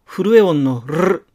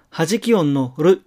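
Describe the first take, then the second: First: "る" with a rolling trill; vibrating tongue-tip on る. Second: "る" as a single quick tap; one light flap on る; tapped r. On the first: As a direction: roll the r in る out long. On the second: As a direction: say る with one flick of the tongue. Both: Shown as a demonstration.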